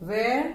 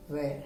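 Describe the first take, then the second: First: "where" with a rising, louder question tune; "where" rising, a little louder. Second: "where" dropped low and soft; "where" said lower and softer. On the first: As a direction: lift "where" up at the end. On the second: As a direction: let "where" sink low and quiet. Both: Shown as a demonstration. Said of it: "केवल pitch में difference है".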